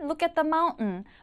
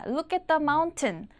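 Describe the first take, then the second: First: The T in mountain is swallowed into N. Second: The T in mountain is clearly pronounced. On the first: "튼 발음이 나면 모두 모두 은 발음으로 나는 게 미국 발음의 성격" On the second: "보다는"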